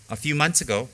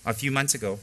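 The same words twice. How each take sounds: The two takes are said the same way.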